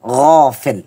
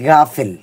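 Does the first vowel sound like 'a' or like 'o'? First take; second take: o; a. First: The first vowel sounds like a rounded 'o'. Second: The first vowel sounds like an open 'a'. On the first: The speaker calls it right. "আসলে উচ্চারণটা হবে সঠিক গফেল" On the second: The speaker calls it wrong. "আমরা অনেকে বলি থেকে গাফেল"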